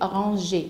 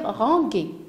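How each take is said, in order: First: The g is a soft zh sound. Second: The g is a hard g sound. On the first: The speaker calls it right. "pour prononcer rangé et non pas rangué" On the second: The speaker calls it wrong. "on va lire rangué"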